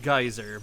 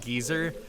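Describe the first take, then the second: First: It uses the speaker's usual American pronunciation. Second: It uses a different, British-style pronunciation. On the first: This is the accepted pronunciation. "I know it's pronounced geyser" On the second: This is how a game pronounces it. "in Xenoblade Chronicles they pronounce it geyser"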